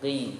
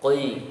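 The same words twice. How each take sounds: First: The syllable sounds only slightly heavy. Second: The syllable sounds very heavy and thick. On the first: The speaker calls it right. "ya qi, qi itu" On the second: The speaker calls it wrong. "Jadi bukan dibaca qi"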